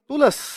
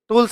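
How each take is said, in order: First: A vowel is inserted between l and s. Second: The word ends in a plain ls cluster. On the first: "टूल्स नहीं टूलस" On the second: "टूल्स नहीं"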